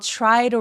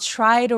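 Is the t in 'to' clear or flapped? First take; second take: flapped; flapped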